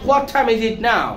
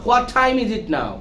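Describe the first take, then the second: Both takes have the same delivery.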